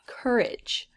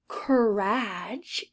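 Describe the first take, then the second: First: The ending has a short 'ij' sound. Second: The ending has a long A sound, like 'age'. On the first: The speaker calls it right. "the A G E makes the I G sound" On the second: The speaker calls it wrong. "that is an A. That's the sound an A usually makes"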